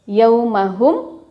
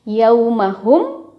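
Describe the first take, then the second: The two takes are said the same way.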